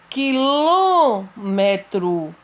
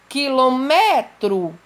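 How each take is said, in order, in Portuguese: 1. O acento está na antepenúltima sílaba. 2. O acento não está na antepenúltima sílaba. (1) "A antepenúltima sílaba sempre vai ser acentuada" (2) "Eu não posso falar quilômetro"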